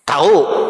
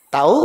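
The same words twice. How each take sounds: First: It is said in an angry, scolding tone. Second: It is said as a curious, asking question. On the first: The speaker is angry at the listener. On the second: The speaker is asking whether the listener knows.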